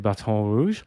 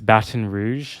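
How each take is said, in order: First: It is said with a French-style pronunciation. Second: It is said with an anglicized American pronunciation. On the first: "I took French in school briefly. Um, I always want to say" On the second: "I hate saying it like this"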